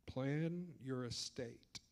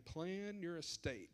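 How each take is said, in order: First: Each word slow and heavy, Plan your estate; slow emphatic. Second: "Plan" punched, the whole phrase slow; slow emphatic repeat. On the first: Financial adviser stressing to the audience, slow and emphatic. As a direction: lean hard on Plan your estate, slowly. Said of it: "putting as much emphasis on it". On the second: Adviser repeating his point to clients, slow and heavy. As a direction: say it again slowly, leaning on "Plan". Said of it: "I'm gonna say that again". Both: Shown as a demonstration.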